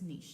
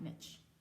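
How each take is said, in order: First: The word is said with a French-style pronunciation. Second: The word is said with an English-style pronunciation. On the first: The speaker calls it right. "the word is niche, ... I think it's French" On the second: The speaker calls it wrong. "not niche"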